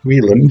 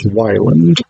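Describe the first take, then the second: First: The first syllable sounds like 'wee'. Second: The first syllable sounds like 'why'. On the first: This is how other people commonly say it. "people pronounce it Wieland" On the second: This is how the speaker personally thinks of it. "I would pronounce this Wyland"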